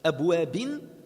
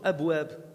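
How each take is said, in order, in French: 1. Le mot se termine par un son -in. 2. Le mot se termine sur une consonne nue.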